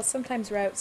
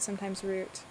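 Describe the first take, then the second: First: "route" as rowt, diphthong ow. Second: "route" as root, long oo. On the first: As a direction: say route to rhyme with out. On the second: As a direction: say route to rhyme with boot. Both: Shown as a demonstration. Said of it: "I would say route sometimes".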